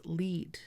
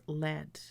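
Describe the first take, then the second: First: "lead" with long ee; lead as LEED. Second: "lead" with short e; lead as LED. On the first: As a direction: say "lead" to rhyme with "need". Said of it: "I would pronounce this word as". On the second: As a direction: say "lead" to rhyme with "bed". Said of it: "would be pronounced as". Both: Shown as a demonstration.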